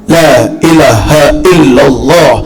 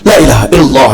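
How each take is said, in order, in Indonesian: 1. Diucapkan dengan perlahan dan jelas. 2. Diucapkan dengan tempo yang lebih cepat. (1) "makin lama makin kencang" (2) "tiga puluh satu masuk gigi dua"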